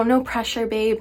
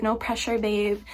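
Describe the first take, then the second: First: Said in the usual way. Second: Softer, gentle no pressure babe; soft reassurance. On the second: Retold or imitated. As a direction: ease her with a soft repeat. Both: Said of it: "they're like".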